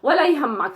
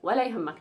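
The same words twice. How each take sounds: First: It is said in an upset, annoyed tone. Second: It is said in a warm, reassuring tone. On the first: Forget it, I won't ask you again. "the other tone of speech ... never mind, I will never ask you" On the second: It's fine, I'll take care of it for you. "never mind. Don't worry about it. Like, it's okay. I will do it"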